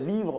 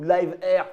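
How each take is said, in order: First: It is said as the French word livre. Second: It is said as English live plus letter R. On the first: "livre ou live R, tu le prononces comme tu veux" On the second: "livre ou live R, tu le prononces comme tu veux"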